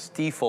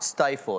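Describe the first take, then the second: First: The first vowel sounds like 'ee'. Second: The first vowel sounds like 'eye'. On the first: The speaker calls it right. "it's Stiefel or something" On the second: The speaker calls it wrong. "I've been saying it wrong. It's not stifle"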